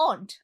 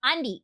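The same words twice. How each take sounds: First: Aunt said short with no ee ending; corrected aunt. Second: Auntie said slowly with an ee ending, the mistake; drawn-out auntie, the version to avoid; mock wrong auntie. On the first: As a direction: clip it to plain aunt. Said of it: "it's not auntie, it's aunt". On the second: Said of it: "it's not auntie". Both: Shown as a demonstration.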